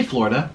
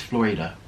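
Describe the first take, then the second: First: Said in the usual way. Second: Florida as Flor-ee-da; careful Spanish-style Florida, Flor-ee-da; corrected Florida. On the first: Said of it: "I say Florida". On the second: Shown as a demonstration. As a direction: give Florida a clear ee in the middle. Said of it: "It's pronounced Florida".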